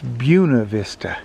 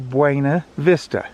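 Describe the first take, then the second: First: It is said the way locals say it. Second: It is said the way outsiders say it. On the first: This is how residents say the name. The speaker calls it right. "they say, no, it's Buena Vista" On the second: This is how visitors say the name. The speaker calls it wrong. "we would say Buena Vista"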